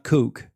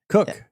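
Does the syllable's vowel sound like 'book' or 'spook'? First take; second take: spook; book. First: The vowel is long, as in spook. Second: The vowel is short, as in book. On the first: The speaker calls it wrong. "but not kook" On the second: The speaker calls it right. "when they say it in, in Oz"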